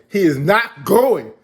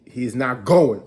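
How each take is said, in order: First: Slow, louder, emphatic; he is not going, hammered out; firm loud refusal. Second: Said in the usual way. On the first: Retold or imitated. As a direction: lay down the law. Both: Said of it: "Alpha was like".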